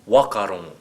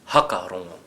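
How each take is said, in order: First: The opening 'wh' is said as a plain 'w'. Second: The opening 'wh' is said as an 'h'. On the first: "And if we were from Taranaki?" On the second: "And how would Ngāpuhi say it?"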